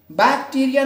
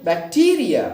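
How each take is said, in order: First: bacteria with BAK high and loud; bacteria said BAK-ti-ria, high and forceful; stress on first syllable. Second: bacteria with TEE punched loud; bacteria said bak-TEE-ria; stress on second syllable. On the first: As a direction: wrongly punch the BAK of bacteria. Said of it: "नहीं". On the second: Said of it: "टीई पर हम क्या करेंगे". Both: Shown as a demonstration.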